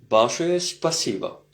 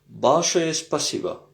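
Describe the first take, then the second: No difference in how they are said.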